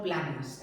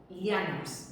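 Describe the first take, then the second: First: Planas begun with a pl cluster; mistaken form planas. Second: Llanas begun with the Spanish ll, like a y; correct pronunciation of llanas. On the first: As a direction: say planas as PLA-nas, the form being corrected. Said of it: "En castellano son llanas". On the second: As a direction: say llanas as YA-nas, with no p sound. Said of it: "no planas". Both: Shown as a demonstration.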